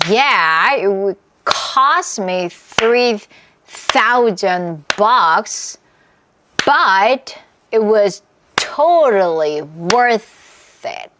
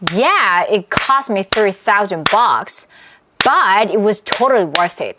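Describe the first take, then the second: First: It is said at a slower pace. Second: It is said somewhat faster.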